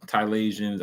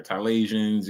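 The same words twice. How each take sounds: First: "Thailandsians" said as tie-LAND-zhuns, a playful made-up word. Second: "Thailandsians" said again, pleased with the invented word; made-up word, savoured. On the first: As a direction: roll out "Thailandsians" like a real demonym. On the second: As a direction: repeat "Thailandsians" approvingly, enjoying its sound. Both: Shown as a demonstration. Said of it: "but that sound fire".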